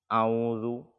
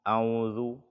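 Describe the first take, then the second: Both takes have the same delivery.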